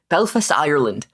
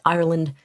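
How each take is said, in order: First: Said in the usual way. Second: An accidental Irish lilt on "Ireland"; slip into Irish accent. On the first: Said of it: "I didn't mean to do that". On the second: Real, not acted. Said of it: "Why did I say Ireland in an Irish accent?".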